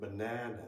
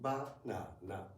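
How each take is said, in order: First: The middle syllable is much longer than the others. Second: All three syllables are equally long. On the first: "In English, it's more like banana, ... The second one is longer, much longer" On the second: "in Japanese, every syllable should be pronounced for the same length of time"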